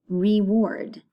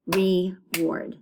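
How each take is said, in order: First: Said in the usual way. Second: "reward" broken into two beats, re, ward; split syllables. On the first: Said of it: "say the words out loud". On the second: Shown as a demonstration. Teacher showing children two syllables, "reward" split in two. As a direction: say "reward" with a gap between re and ward. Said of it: "Two syllables".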